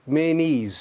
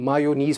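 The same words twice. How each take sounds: First: मेनीज in two long syllables, "may-neez"; correct pronunciation. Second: मायोनीज as "maa-yo-neez"; Urdu-style pronunciation. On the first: Teacher modelling mayonnaise for learners, मेनीज as "may-neez". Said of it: "तो word है". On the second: Teacher explaining the habit from Urdu, मायोनीज as "maa-yo-neez". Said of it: "Urdu में उस तरह से होता है". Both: Shown as a demonstration.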